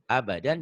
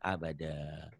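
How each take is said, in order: First: The word ends with an n sound. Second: The word ends with an open vowel. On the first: The reading continues past this word. The speaker calls it wrong. "abadan salah" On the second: The reading stops at this word. The speaker calls it right. "dihentikan abada"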